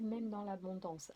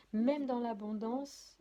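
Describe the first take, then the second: First: Said in the usual way. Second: MÊME DANS L'ABONDANCE louder, higher and drawn out; emphatic repeat. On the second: Real, not acted. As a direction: hammer "même dans l'abondance" slowly and loudly to drive it home. Repeats it to drive point home. (« même dans l'abondance » appuyé, fort et lent)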